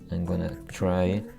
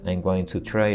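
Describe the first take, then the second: First: 'Going to' is run together as 'gonna'. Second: Each word of 'going to' is said in full. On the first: "en la pronunciación informal sería como" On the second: "es muy estándar también"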